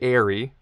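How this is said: It is said like the English word airy. The speaker calls it wrong. "a lot of Americans say airy, which is not correct"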